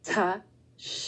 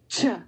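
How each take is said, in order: First: The t and sh are said as separate sounds. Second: The t and sh are blended into one sound. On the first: The speaker calls it wrong. "You don't say ta, sh" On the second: The speaker calls it right. "the airflow comes out with the palatal sh"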